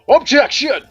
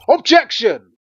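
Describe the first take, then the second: First: It is shouted weakly and flatly. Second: It is shouted strongly and forcefully.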